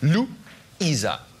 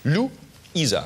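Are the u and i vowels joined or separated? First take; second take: separated; separated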